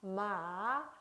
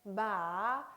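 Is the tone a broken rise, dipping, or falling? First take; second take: dipping; dipping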